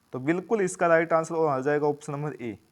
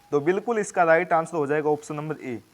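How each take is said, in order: No difference in how they are said.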